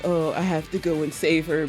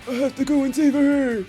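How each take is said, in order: First: It is said in a normal voice. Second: It is said in a Batman voice.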